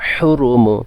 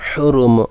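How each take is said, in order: No difference in how they are said.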